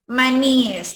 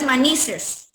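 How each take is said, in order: First: Maníes with stressed í, then -es; correct plural maníes. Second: Manices slowly, with an s sound before -es; slow manices, ending -ni-ses; wrong plural manices. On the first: Teacher models the plural of maní, maníes with clear í-es. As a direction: say maníes with no s between í and e. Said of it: "No es manices". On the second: Teacher quotes how some people say it, manices with added s. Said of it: "Como algunos dicen". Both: Shown as a demonstration.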